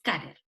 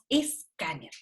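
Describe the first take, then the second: First: It starts directly with an s consonant cluster. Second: It starts with an added e vowel sound. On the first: This is the original form from the source language. "Nosotros no decimos scanner. Scanner es la palabra en inglés" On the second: This is the adapted form people use. "nosotros decimos escáner"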